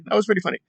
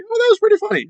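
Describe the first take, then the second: First: Quiet repeat. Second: Much higher, delighted "that was pretty funny"; amused chuckle. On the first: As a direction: murmur it again, settling down. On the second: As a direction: burst out pleasantly surprised. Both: Retold or imitated. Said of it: "but I was like".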